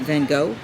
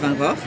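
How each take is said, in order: First: The name is said with an American pronunciation. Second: The name is said with a non-American pronunciation. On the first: The speaker calls it wrong. "That's Americanized" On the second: The speaker calls it right. "it's Van Gogh"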